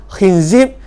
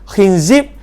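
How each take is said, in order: Both takes have the same delivery.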